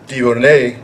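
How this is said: The name is said with French pronunciation. "is how the French would say it"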